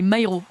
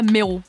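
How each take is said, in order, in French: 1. La première syllabe a deux voyelles, 'ma-i'. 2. La première syllabe a une seule voyelle simple, un 'e'. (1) "rectification, c'est [name]" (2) "pas Méro"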